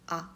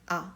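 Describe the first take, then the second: No difference in how they are said.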